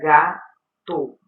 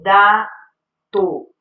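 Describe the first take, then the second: First: The first sound is a G sound. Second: The first sound is a D sound. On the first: The speaker calls it right. "que seria gato" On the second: The speaker calls it wrong. "substitui os fonemas K e G pelas letras D e T"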